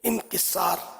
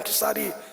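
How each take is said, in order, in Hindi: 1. शब्द लंबी 'aa' और 'r' के बाद खत्म होता है। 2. शब्द के अंत में एक अतिरिक्त 'ee' ध्वनि जुड़ी है। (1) "असल लफ्ज है तलफ़ुज़ इनकिसार" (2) "हमारे यहाँ इनकिसारी अ, बोला जाता है"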